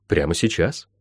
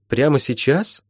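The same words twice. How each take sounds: First: Lower, softer, settled reply; firm confirmation. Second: Mildly startled, higher rising question; a touch of alarm from a girl; frightened question. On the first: Acted. Healer answering frightened Molly, quietly firm. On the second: A narrator's reading. Molly asked to begin at once, mildly frightened. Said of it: "испугалась Молли".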